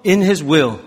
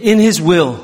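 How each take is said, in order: First: Said in the usual way. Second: Slow and louder, each word drawn out; said loudly. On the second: Shown as a demonstration. Pastor leading the congregation, slow and loud. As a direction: boom it out for the congregation to copy. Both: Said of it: "자, 크게".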